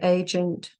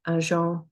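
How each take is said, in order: First: It is pronounced with English sounds. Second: It is pronounced with French sounds. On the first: "say the English" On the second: "then the French"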